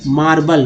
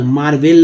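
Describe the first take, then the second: First: मार्बल as "maar-bul"; correct reading. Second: मार्वेल as "maar-vel"; wrong reading. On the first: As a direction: neutral vowel in the end of मार्बल. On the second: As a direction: clear e in the end of मार्वेल. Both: Shown as a demonstration. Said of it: "मार्वेल नहीं".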